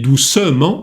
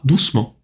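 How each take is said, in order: First: The vowel after 'douc' is pronounced. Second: The vowel after 'douc' is dropped. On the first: The speaker calls it wrong. "не doucement" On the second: The speaker calls it right. "а doucement"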